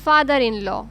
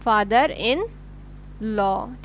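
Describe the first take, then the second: First: Said in the usual way. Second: Father in ... law with a pause before law; slow teacher drill, law held apart; slow, spaced for students. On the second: Shown as a demonstration. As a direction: say father in, hold, then law. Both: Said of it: "तो हम बोलेंगे उनको".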